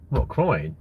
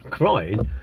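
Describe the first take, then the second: First: Said in the usual way. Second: Amused disbelieving echo with a laugh; chuckling, incredulous repeat. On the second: Real, not acted. Laughs at chat comment.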